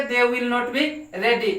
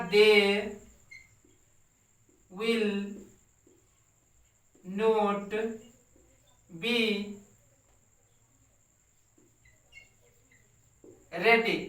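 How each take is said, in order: First: Said in the usual way. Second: Each word set apart by long pauses; slow word-by-word dictation. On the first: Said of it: "teacher repeats sentence at speed". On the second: Shown as a demonstration. Teacher dictating to the class, word by word, slowly. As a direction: dictate it one word at a time for students to copy. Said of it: "teacher dictating word by word".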